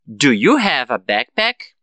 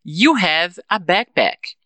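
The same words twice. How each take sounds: First: Slow and low, "backpack" rising at the end; question intonation. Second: Slow, "backpack" falling at the end; affirmative statement. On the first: Teacher shows what students should repeat, slow rising question. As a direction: start low and lift up on "backpack". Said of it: "E você vai repetir". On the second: Teacher repeats the model for students, slow falling statement. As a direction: state it slowly, letting "backpack" drop. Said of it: "eu vou falar". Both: Shown as a demonstration.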